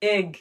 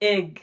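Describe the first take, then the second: No difference in how they are said.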